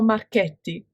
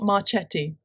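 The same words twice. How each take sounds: First: The name has an Italian pronunciation. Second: The name has an English pronunciation. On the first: The speaker calls it right. "It's Ciro Marchetti" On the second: The speaker calls it wrong. "It's not Marchetti"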